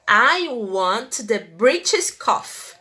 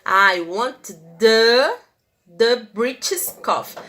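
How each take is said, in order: First: Slow and deliberate, every word clear; teacher modeling the sentence. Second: "the" held and rising, then pressed on repeat; teacher highlighting the definite article; stress on the. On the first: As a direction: read slowly for learners. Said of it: "teacher reads example". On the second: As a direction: lean on "the" before British. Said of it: "Tá vendo que eu coloquei a". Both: Shown as a demonstration.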